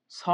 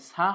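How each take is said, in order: First: "স" with a thick s and rounded o vowel; "স" as heavy "so"; correct heavy SO. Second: "সা" with a thin s and open aa vowel; "সা" as light "saa"; wrong open SAA. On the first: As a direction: say a full, rounded "স", not an open aa. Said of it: "স হবে". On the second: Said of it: "সা হবে না". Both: Shown as a demonstration.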